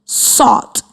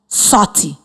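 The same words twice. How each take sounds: First: Said in the usual way. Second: "salty" said slowly with a clear Y ending; added Y sound. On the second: Shown as a demonstration. Teacher showing the class the Y ending on "salty". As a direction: lean on the final Y of "salty". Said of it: "add the sound Y to the end".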